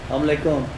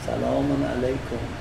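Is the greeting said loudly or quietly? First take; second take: loudly; quietly. First: The greeting is said loudly and clearly. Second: The greeting is said quietly and indistinctly. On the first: The speaker calls it right. "سلامت رو بلند بگو، روشن بگو" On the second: The speaker calls it wrong. "اینجوری نه"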